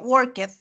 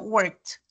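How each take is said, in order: First: The ending is said as an extra 'ed' syllable. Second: The ending is said as a plain T sound. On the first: The speaker calls it wrong. "No se pronuncia worked" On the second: The speaker calls it right. "sino worked"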